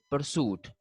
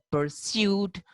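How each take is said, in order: First: Pursuit as "per-soot"; no y glide in pursuit; American pronunciation. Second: Pursuit as "per-SYOOT", higher; British pronunciation. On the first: Teacher showing how they say it, American "per-soot" for pursuit. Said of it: "while they say". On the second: Teacher contrasting two varieties, British "per-syoot" for pursuit. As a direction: say pursuit with a y before oo. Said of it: "while they say pursuit". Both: Shown as a demonstration.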